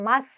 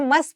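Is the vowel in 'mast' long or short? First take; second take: long; short. First: The vowel is long and open, like 'ah'. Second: The vowel is short, like 'must'. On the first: The speaker calls it right. "It's a मास्ट सेल" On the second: The speaker calls it wrong. "बहुत सारे बच्चे से मस्त pronounce करते हैं"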